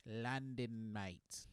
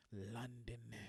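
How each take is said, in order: First: London said with a British accent, vowel like lændən, long n; a mock British accent on London, mate. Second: Said in the usual way. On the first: Shown as a demonstration. A comic telling the crowd about London, in a mock British accent.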